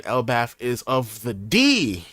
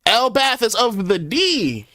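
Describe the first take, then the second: First: Said in the usual way. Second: High, loud, slow proclamation; shouted. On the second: Acted. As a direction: bellow the line out like a battle cry. Repeats the line, dramatically.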